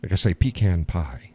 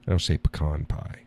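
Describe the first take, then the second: First: "pecan pie" as PEE-can pie; "pecan pie" PEE-kan pie; pronunciation demo. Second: "pecan pie" as puh-KAHN pie; "pecan pie" puh-KAHN pie, softer; contrast take. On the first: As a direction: say "pecan" with long ee and flat a. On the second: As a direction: say "pecan" with a schwa then KAHN. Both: Shown as a demonstration.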